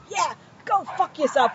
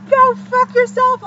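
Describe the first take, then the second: First: Higher-pitched, mildly mocking insult; imitated hostility. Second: High, loud, drawn-out mock scream; imitated angry yell. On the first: Imitating a stranger's parting insult in New York, mildly hostile. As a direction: toss off a retold insult, higher. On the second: Imitating a stranger yelling after her as she leaves, angry. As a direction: stretch it out, hammed-up and shrieky.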